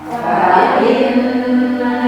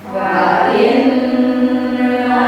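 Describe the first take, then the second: The two takes are said the same way.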